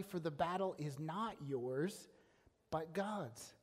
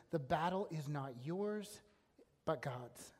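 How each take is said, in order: First: Not lifted on a rising tune in the phrase "for the battle is not yours"; stressing not. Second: Battle stressed, then "but God's." dropped much lower and softer; hushed repeat. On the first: Preacher reading the verse to the congregation, stressing not. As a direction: linger slowly on not, then let "but God's." fall. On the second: Preacher repeating the key verse to listeners, low and hushed. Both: Shown as a demonstration. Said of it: "remember those words".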